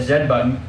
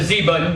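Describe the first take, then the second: First: The letter is said the non-American way. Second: The letter is said the American way. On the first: The speaker calls it right. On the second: The speaker calls it wrong.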